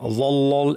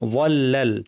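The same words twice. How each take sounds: First: The l sound is thick and heavy. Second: The l sound is thin and light. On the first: The speaker calls it wrong. "এভাবে না" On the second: The speaker calls it right. "লাম পাতলা"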